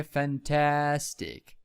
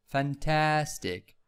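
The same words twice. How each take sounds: First: Said in the usual way. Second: Fantastic said slowly, the second syllable TAS clearly stressed. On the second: Shown as a demonstration. Teacher modelling stress for students, slow fan-TAS-tic. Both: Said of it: "stress in the second syllable".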